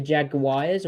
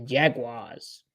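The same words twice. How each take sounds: First: Jaguars slowly as "JAG-uh-WIRES"; Jag-wires pronunciation. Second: Jaguars slowly as "JAG-wahz"; Jag-wars pronunciation. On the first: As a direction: stretch Jaguars to end in "wires". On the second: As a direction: Jaguars in two drawn-out syllables. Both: Shown as a demonstration. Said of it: "What do you say?".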